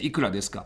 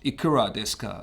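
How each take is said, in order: First: It is read with native Japanese pronunciation. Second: It is read with English-style pronunciation. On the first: The speaker calls it right. "we say ikura desu ka" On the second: The speaker calls it wrong. "how the native English speakers would read would be like"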